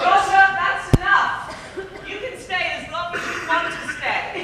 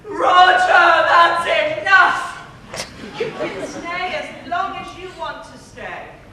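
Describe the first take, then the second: First: It is said calmly and gently. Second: It is shouted loudly and angrily.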